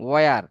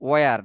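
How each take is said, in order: The two takes are said the same way.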